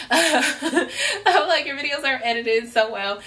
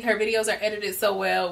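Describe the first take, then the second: First: Laughing through the compliment. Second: Said in the usual way. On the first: Retold or imitated. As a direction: gush it while laughing. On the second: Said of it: "which I told her all of these things already".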